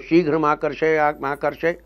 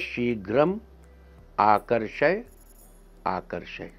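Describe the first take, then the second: First: The first two words run together as one. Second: The first two words are said separately. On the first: "तीनों को जोड़ देंगे तो" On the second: "यह है शीघ्रम आकर्षय आकर्षय"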